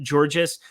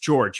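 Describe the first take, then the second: First: The name ends with an S sound. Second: The name ends without an S sound. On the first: The speaker calls it wrong. "I always want to say" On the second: The speaker calls it right. "it's just George"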